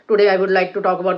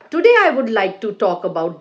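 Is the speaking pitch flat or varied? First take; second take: flat; varied. First: The pitch stays level and monotonous throughout. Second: The pitch moves up and down throughout. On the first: The speaker calls it wrong. "Don't speak like this" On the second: The speaker calls it right. "See the intonation. your voice should go up and down"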